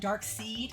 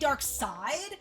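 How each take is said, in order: First: The second word has a long 'ee' vowel. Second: The second word has an 'eye' vowel. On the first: The speaker calls it wrong. "they don't know how I feel about saying dark seed" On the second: The speaker calls it right. "so it must be dark side"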